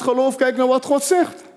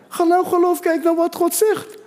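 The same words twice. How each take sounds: First: Said in the usual way. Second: Higher, driving the line home; emphatic repeat. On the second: Shown as a demonstration. Preacher repeating for the silent congregation, higher and emphatic. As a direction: say it again so they answer amen. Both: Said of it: "ik had een amen verwacht".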